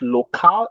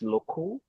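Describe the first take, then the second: First: The second vowel is a full, unreduced vowel. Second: The second vowel is a reduced schwa sound. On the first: The speaker calls it wrong. "It's not local" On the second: The speaker calls it right. "it's local"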